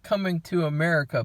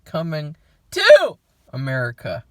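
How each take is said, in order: First: The middle word is a weak, reduced 'to'. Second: The middle word is a full, clear 'two'. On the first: The original film's title. The speaker calls it wrong. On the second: The sequel's title with the number two. The speaker calls it right. "That's how you're supposed to say it, because it's a two"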